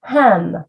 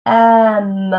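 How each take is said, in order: First: Said in the usual way. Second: EM drawn out after a separate H; sounds stretched apart. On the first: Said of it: "I would give him a word". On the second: Shown as a demonstration. Teacher showing how her student sounded out hem, sounds stretched apart. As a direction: stretch EM, holding each sound. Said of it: "all the different sounds".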